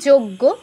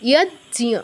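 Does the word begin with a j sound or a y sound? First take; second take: j sound; y sound. First: It begins with j and adds a g. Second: It begins with y and has no g. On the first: The speaker calls it wrong. "বাংলায় বলি যোগ্য, extra গ নিয়ে আসি" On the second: The speaker calls it right. "জয় হসন্ত অর্ধেক উচ্চারণ, ঞ এর পূর্ণ উচ্চারণ"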